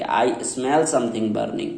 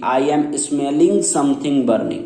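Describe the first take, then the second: First: Slow correct example. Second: Slow wrong example. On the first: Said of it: "आपको क्या बोलना पड़ेगा". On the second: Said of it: "ये नहीं बोलेंगे कि". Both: Shown as a demonstration.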